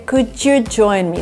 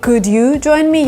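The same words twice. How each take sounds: First: Could and you are linked by a j sound. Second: Could and you are said separately, without a j. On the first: The speaker calls it right. "So there is like this extra J sound" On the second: The speaker calls it wrong. "Instead of saying"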